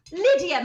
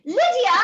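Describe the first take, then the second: First: Said in the usual way. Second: Loud call across the house, pitched high. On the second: Acted. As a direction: shout her name to reach the next room. Mother calls daughter across house.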